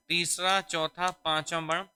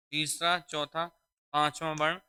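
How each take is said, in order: Both takes have the same delivery.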